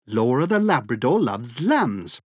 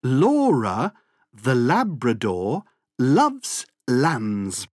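First: The sentence is said at a fast pace. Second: The sentence is said at a slow pace.

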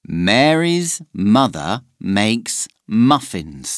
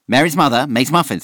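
First: It is said at a slow, normal pace. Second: It is said very fast.

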